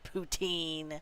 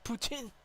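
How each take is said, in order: First: It is said with an American pronunciation. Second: It is said with a Canadian pronunciation. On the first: The speaker calls it wrong. "Americans say poutine" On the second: The speaker calls it right. "It's poutine"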